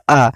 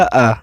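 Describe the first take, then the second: First: आ said short and clipped, one beat; आ as a short hrasva vowel. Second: आ stretched to twice the length, with more force; आ as a long dirgha vowel. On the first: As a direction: give आ just a single quick beat. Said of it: "तो ये ह्रस्व है". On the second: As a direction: draw आ out long and strong. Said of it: "इसमें अधिक समय लगा, अधिक ऊर्जा के साथ". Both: Shown as a demonstration.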